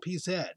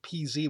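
First: The last letter is said as 'zed'. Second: The last letter is said as 'zee'. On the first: "And they kept translating my, Zs to Z" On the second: "I said PZ when I first came here"

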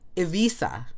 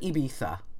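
First: The middle consonant is a V sound. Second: The middle consonant is a B sound. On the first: The speaker calls it right. "It's kind of like a V sound" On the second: The speaker calls it wrong. "I would have said Ibiza"

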